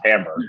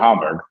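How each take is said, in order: First: The name is said with an American pronunciation. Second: The name is said with a German-like pronunciation. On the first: The speaker calls it wrong. "I've clearly been saying it the American way" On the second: The speaker calls it right. "I'm trying to pronounce it correctly"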